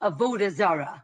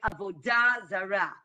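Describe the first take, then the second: First: It is said with a Yiddish pronunciation. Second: It is said with a modern Hebrew pronunciation. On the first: "in the Yiddish pronunciation, they would say" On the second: "that is the, the Hebrew pronunciation"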